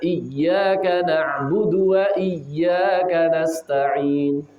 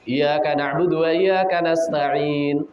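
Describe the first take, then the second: First: The y sound in iyyaka is held and doubled. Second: The y sound in iyyaka is short, not doubled. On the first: Only You we worship, only You we ask for help. The speaker calls it right. "Maka pembacanya bagaimana?" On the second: Only the sun we worship, only the day we ask for help. The speaker calls it wrong. "ada imam yang membaca seperti ini"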